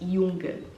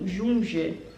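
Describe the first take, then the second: First: The first sound is like 'y'. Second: The first sound is like 'zh'. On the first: This is how Germans say it. "eles falam" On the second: This is how Portuguese speakers would read it. "pra gente seria assim"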